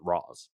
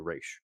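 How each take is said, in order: First: The name ends in a z sound, like Roz. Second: The name ends in an sh sound, like Raysh. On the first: This is how the film says it. "they do pronounce it Roz" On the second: This is not how the film says it. "They don't say Raish in this"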